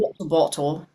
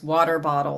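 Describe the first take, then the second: First: It is said in a British accent. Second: It is said in an American accent.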